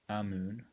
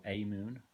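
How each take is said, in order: First: "Amoon" with a short flat A as in "am"; short-A pronunciation. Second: "Amoon" with a long A as in "day"; long-A pronunciation. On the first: Reviewer offering one way to pronounce a pedal brand, "Amoon" as "AM-oon". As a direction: say "Amoon" starting like "am", then "moon". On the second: Reviewer offering the alternative way to pronounce a pedal brand, "Amoon" as "AY-moon". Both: Shown as a demonstration. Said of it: "however you want to pronounce it".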